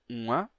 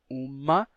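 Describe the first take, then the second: First: The word has a nasal vowel without m. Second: The word has a clear m consonant sound. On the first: This is the older, original pronunciation. "conservam a pronúncia original e dizem uma" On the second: This is the newer pronunciation. "dizem uma com a pronúncia nova"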